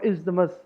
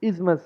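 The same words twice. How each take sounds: First: Isthmus with TH sounded, is-duh-mus; wrong pronunciation. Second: Isthmus with silent TH, IZ-mus; correct pronunciation. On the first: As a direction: add a middle syllable to isthmus. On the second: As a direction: say isthmus in two beats, falling. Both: Shown as a demonstration. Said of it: "not isthmus".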